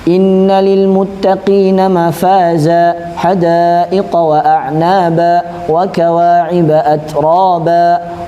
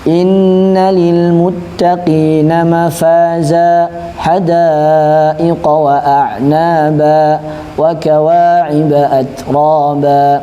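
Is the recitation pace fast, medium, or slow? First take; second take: fast; medium. First: It is recited at a fast pace. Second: It is recited at a medium pace. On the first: "walaupun cepat" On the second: "enggak terlalu cepat dan enggak terlalu lambat"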